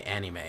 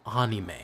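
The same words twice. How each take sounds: First: ANIME in a standard Midwest accent, AN-ih-may; flat Midwest A in ANIME. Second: ANIME with an open "ah", AH-nee-may; required pronunciation. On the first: Streamer showing the banned Midwest accent on ANIME. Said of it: "my standard Midwest accent". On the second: Streamer showing how he has to say it, AH-nee-may for ANIME. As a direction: open the first vowel of ANIME to "ah". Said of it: "I have to say". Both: Shown as a demonstration.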